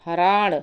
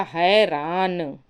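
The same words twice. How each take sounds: First: हराण with retroflex ṇ, short first vowel; wrong form. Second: हैरान with ai and dental n; slow "hairaan" for हैरान; correct form. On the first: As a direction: say हराण as "haraaṇ". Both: Shown as a demonstration. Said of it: "हराण नहीं होगा".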